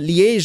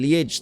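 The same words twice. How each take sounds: First: The name is said with French pronunciation. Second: The name is said with Dutch pronunciation. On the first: "apparently the French way" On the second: "the lowlanders of pronouncing it"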